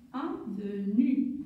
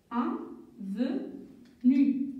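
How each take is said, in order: First: "Avenue" again, slow and lower; slow repeat. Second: "Avenue" stretched out slowly, syllable by syllable. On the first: Teacher repeats "Avenue" slowly for pupils. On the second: Teacher sounds out "Avenue" slowly for the children. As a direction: pull "Avenue" apart slowly for young readers. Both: Shown as a demonstration. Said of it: "Je vais écrire".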